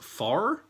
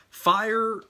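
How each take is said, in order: First: The word sounds just like 'far'. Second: The word has the full 'fire' vowel sound. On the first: This is how old-timers or southerners say it. "they'll pronounce it far, F A R, like something's far" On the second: This is the usual pronunciation. "I think, is pretty common"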